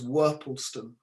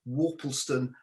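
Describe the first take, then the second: First: The name is said in the old local way. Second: The name is said in a refined way. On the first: This is how local people used to say it. "in bygone times it was known as Worpleston. That is what local people would have called it" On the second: This is the newer, more refined form most people use today. "changing the name slightly, more refined"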